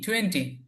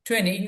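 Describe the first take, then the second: First: The t sound after the n is pronounced. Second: The t sound after the n is dropped. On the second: "আরেকটু সুন্দর উচ্চারণ হলো টোয়েনি ... ব্রিটিশরা বলে"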